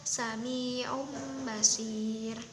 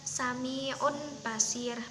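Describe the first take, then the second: First: An m sound is heard before Basir. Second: An n sound is heard before Basir. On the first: The speaker calls it right. "menjadi ada huruf mimnya" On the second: The speaker calls it wrong. "bukan Sami'un Basir, bukan"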